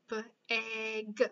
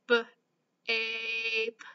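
First: "B-a-g" sounded out with the short a, like apple; short a try. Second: "b-ape" sounded out with a long A, like ape; long A try. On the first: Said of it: "Let's try the a sound". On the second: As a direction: stretch "b-ape" into b plus a long ay. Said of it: "So A says A or a". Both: Shown as a demonstration.

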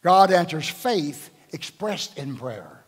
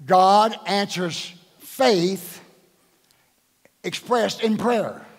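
First: Slow, deliberate, God first and heavy; slow emphatic statement. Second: "God answers faith" very slow with "God" punched; stress on God. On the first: Acted. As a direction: lay each word down slowly. Preacher stating key principle slowly. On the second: Shown as a demonstration. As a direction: hit "God" hard and stretch it to grab attention. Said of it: "I had to say the first word to get your attention".

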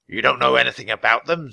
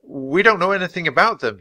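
First: Sceptical, lightly rasped question; a hint of raspy bird-king disbelief; raspy Raven King. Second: Put-on steady denial, pitched high for a boy; low and steady. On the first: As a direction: echo it back as a doubting raspy villain. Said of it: "he asked in a raspy voice". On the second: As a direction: deny it firmly in a boy's higher voice. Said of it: "he said in a low, steady voice". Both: A narrator's reading.

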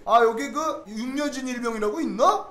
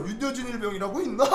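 First: Officer's question. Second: Laughing retelling. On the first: Intelligence officer asks for private. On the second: Same question retold laughing. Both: Retold or imitated.

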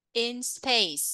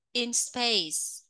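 First: "space" ending on a clear hissed S; final S stressed. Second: Said in the usual way. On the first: Shown as a demonstration. Teacher showing the class the final S in "space". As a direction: let the final S of "space" hiss out. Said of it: "Âm S cuối nha". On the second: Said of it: "Các bạn phát âm theo cô nha".

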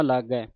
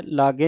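First: ਲਾਗੈ ending in an open "ai". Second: ਲਾਗੇ ending in a closed "e"; wrong vowel ending. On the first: Teacher shows the correct reading, ਲਾਗੈ with open final "ai". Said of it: "ਲਾਗੇ ਨਹੀਂ ਪੜ੍ਹਨਾ". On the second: Teacher shows the misreading, ਲਾਗੇ with closed final "e". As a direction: say ਲਾਗੇ with a narrow final "ay" sound. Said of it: "ਨਹੀਂ ਪੜ੍ਹਨਾ". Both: Shown as a demonstration.

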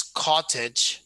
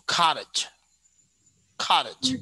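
First: "cottage" slowly, with a clear T; standard pronunciation. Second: American "cottage", T softened towards D; American pronunciation. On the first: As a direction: say "cottage" the standard way, T fully sounded. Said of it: "So the standard way is". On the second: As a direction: say "cottage" American-style with a flapped T. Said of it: "get surprised". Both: Shown as a demonstration.

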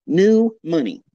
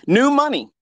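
First: Said in the usual way. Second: New money said high, loud and falling; mock sneer. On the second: Sneering at the new-money crowd, high and loud.

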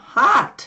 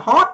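First: "hot" with an open ah-like vowel; "hot" American-style, half ah, half o; correct American o. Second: "hot" with a rounded, rising Vietnamese o; "hot" clipped with a Vietnamese tone; wrong Vietnamese o. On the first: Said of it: "mà là hot". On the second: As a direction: say "hot" like Vietnamese "hót", high and short. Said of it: "chứ không phải là hot". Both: Shown as a demonstration.

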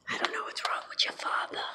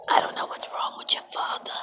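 First: Put-on whispered old Jewish mother accent; hushed old Jewish accent, gossiping to the kids. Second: Put-on old Jewish accent complaining to the kids. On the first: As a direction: murmur it like an old Jewish mom. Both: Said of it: "That was my old Jewish accent".

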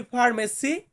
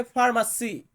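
First: Said in the usual way. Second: ফার্মাসি with an open a sound in place of the e in ফার্মেসি; Malay pronunciation. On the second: Shown as a demonstration. Teacher showing new workers the Malay sound, careful. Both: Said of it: "উচ্চারণটা একটু ভিন্ন হয়".

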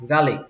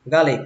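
First: "garlic" with the closing k left unreleased; final k dropped. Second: "garlic" with the closing k released; final k sounded. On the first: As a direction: let the last k of "garlic" go silent. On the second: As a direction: finish "garlic" on an audible k. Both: Shown as a demonstration. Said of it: "có âm cờ trước cuối cũng được".

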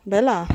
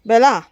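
First: Said in the usual way. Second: Calling Bela out loud, falling. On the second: Real, not acted. Farmer calls her animal Bela, loud call. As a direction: shout Bela's name across the yard.

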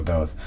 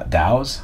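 First: "Dowes" said to rhyme with "nose"; long-o pronunciation. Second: "Dowes" said to rhyme with "cows", questioning; ow pronunciation. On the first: Unsure of musician's name, "Dowes" with long o. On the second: Checking musician's name, "Dowes" with ow, questioning. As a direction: try "Dowes" with an ow sound. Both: Shown as a demonstration. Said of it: "How do you say it?".

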